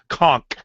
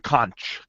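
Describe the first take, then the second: First: The word ends with a K sound. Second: The word ends with a CH sound. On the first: The speaker calls it right. "It's a K sound" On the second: The speaker calls it wrong.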